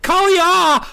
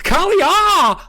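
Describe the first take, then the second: First: It is said high-pitched and frightened. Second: The same.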